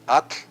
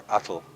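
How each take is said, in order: First: At with a hissed voiceless tl ending; no vowel after the t in At, air out the sides; correct TL release. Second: Atl as AH-tul, voiced vowel and L; wrong TL ending. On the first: Teacher quizzing which is correct, correct TL release. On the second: Teacher offering the wrong choice, wrong TL ending. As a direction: say atl like it rhymes with bottle. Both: Shown as a demonstration. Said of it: "Which one is correct?".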